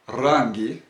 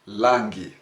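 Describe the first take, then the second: First: The word begins with an R sound. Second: The word begins with an L sound. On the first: The speaker calls it right. "Rangi is the correct word here" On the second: The speaker calls it wrong. "they give out the La sound"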